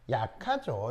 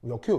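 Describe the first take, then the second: First: It is said in a friendly, smiling way. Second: It is said in a curt, unfriendly way.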